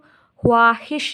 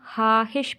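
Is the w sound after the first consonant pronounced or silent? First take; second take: pronounced; silent. First: The w sound is clearly pronounced. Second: The w sound is left silent. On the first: The speaker calls it wrong. "इसको हम ख्वाहिश नहीं पढ़ते" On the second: The speaker calls it right. "इसको हम हाहिश पढ़ते हैं"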